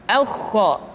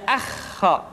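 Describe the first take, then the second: First: "Aukho" with full rounded heavy vowels; thick heavy vowel. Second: "akho" with a thin open a; wrong thin vowel. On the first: Teacher showing the correct heavy sound. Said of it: "dengan suara yang tebal". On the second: Teacher showing the wrong thin sound. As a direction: say "akho" light to show the mistake. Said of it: "tidak akho". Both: Shown as a demonstration.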